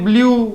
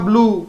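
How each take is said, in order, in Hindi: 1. oo स्वर से पहले y ध्वनि आती है। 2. oo स्वर के साथ y ध्वनि नहीं आती। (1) "हम बोलते हैं ब्लू, गलत है" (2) "ब्लू होगा ब्लू"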